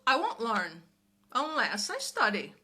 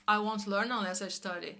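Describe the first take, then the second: First: It is said with lively, natural intonation. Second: It is said flat and monotone, like a robot. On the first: The speaker calls it right. "é a entonação que você dá" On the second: The speaker calls it wrong. "Você não vai falar igual um robô"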